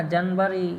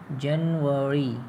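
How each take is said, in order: First: जनवरी said Bihari-style as "जनबरी" with a b; जनवरी with a b sound and the stress on the front; wrong pronunciation. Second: जनवरी said slowly and clearly as "जेनवरी" with a v; correct English pronunciation. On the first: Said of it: "तो ऐसा नहीं चलेगा". (जनवरी को "जनबरी" बोलना, बिहारी अंदाज़ में) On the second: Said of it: "इस तरह से बोलोगे तब समझेगा वो". (जनवरी को धीरे से सही अंग्रेज़ी उच्चारण "जेनवरी" में बोलना) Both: Shown as a demonstration.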